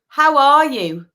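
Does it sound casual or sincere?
sincere. It sounds slow, warm and sincere.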